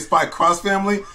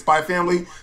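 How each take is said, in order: First: The X in the title is said 'cross'. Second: The X in the title is left out. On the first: "Some people say Spy Cross Family" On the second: "Some people say, say Spy Family"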